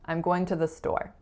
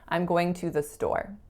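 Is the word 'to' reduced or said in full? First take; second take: reduced; full. First: The word 'to' is reduced to a short schwa. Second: The word 'to' is said in full, unreduced. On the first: This is the common American way of saying it. "I'm using the word to, T O, in its reduced form" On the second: This is the common Canadian way of saying it. "it's really common to not reduce as much, so you will frequently hear to"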